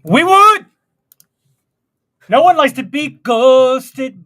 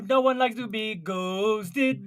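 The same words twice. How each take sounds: First: Much higher, louder indignant cry; loud outburst. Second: Said in the usual way. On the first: Acted. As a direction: shout it in mock outrage. Mock outrage about ghosting.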